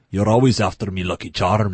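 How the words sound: It is an Irish accent in a deep voice. The speaker calls it right. "Like a deep voice"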